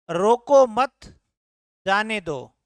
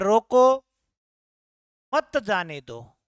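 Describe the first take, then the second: First: There is a pause after 'mat'. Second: There is a pause after 'roko'.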